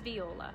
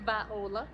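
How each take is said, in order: First: The name is said in a neutral accent. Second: The name is said in a Southern US accent. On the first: "but it maybe is Viola" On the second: "In the South where I grew up, it would be Viola, and I'd be saying it with a Georgia Peach-esque accent"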